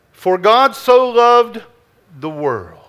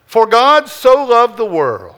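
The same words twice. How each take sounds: First: "For God so loved the world", slowed, with "so" drawn out and leaned on; slow stress on so. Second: Said in the usual way. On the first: Shown as a demonstration. Pastor dwelling on the verse for the congregation, "so" held and stressed. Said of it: "The first thing you have to understand". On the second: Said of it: "So from John three sixteen".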